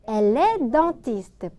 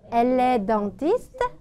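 First: The voice falls at the end. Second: The voice rises at the end. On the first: It states that she is a dentist. "그녀는 치과의사야" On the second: It asks whether she is a dentist. "붙여서 억양 높이면"

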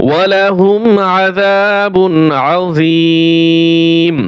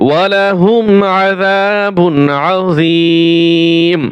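No difference in how they are said.

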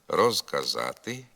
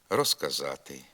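First: Said slowly, the z keeps its voiced sound. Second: Said at normal pace, the z sounds like s. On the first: "Не оглушується «з» у префіксі «роз» і тоді, коли ми говоримо повільно" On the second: "Якщо ми говоримо швидко або нормальним темпом, то приголосний «з» у префіксі «роз» перед глухими, як правило, оглушується"

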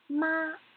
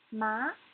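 First: The pitch stays high and level. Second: The pitch rises from middle to high. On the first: "The first tone has to be high and flat" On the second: "the second tone needs to go up"

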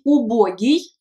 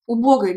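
First: The word ends with an 'iy' sound. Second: The word ends with an 'oy' sound. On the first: This is the current form. The speaker calls it right. "Maintenant, on dit убогий et on écrit aussi i à la fin" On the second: This is an old, outdated form. The speaker calls it wrong. "avec ой à la fin, c'est une ancienne terminaison et une ancienne prononciation"

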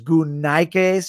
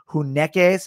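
First: It is said in old Koine Greek pronunciation. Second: It is said in modern Greek pronunciation. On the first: "in the old Koine Greek pronunciation" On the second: "if you're speaking modern Greek, it's translated like hunekes"

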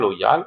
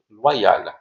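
First: The 'oy' is said without a 'wa-y' sound. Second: The 'oy' is said as 'wa' plus 'y'. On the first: The speaker calls it wrong. "on ne dit pas loyal" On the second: The speaker calls it right. "on dit loyal"

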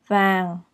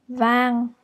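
First: The word is said with its tone. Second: The word is said level, without a tone. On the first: "With the tone" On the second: "without the tone"

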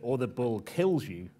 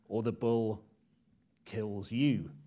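First: The stress falls on the verb. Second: The stress falls on the final word.

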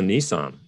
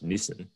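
First: It is said the American way. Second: It is said the Australian way. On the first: "it's also Nissan in the US" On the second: "it's very much Nissan here"

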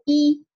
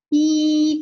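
First: The syllable is said short and light. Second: The syllable is said long, heavy and loud. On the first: It is the initial. "读的轻和短啊" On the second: It is the single vowel final. "单韵母要读的又重又长又响亮"

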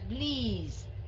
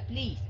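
First: The vowel is drawn out long. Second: The vowel is short and clipped. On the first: The speaker calls it right. "mà là please ... Thường mình ưa kéo dài" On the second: The speaker calls it wrong. "Không phải là please"

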